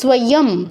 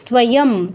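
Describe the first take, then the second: No difference in how they are said.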